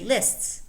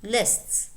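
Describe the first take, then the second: The two takes are said the same way.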